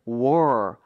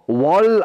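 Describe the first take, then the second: First: The word ends with an R sound. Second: The word ends with an L sound. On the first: The speaker calls it right. "우리가 원하는 발음은 war, R 발음인데" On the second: The speaker calls it wrong. "이렇게 발음해버리면 이건 L 발음이고요"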